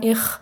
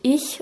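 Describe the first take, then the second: First: The ch sound is harsh and made in the throat. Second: The ch sound is soft and made further front. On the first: This is the speaker's own dialect form. "Da hört man schon diesen Ch-Laut im Hals" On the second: This is the form the speaker does not use. "ich sage nicht ich"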